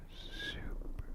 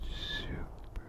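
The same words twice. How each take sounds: The two takes are said the same way.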